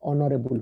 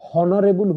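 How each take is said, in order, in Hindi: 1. यह शब्द स्वर से शुरू होता है, इसमें h नहीं है। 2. यह शब्द h ध्वनि से शुरू होता है। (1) "ऑनरेबल हुए" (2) "हॉनरेबल हुएनी"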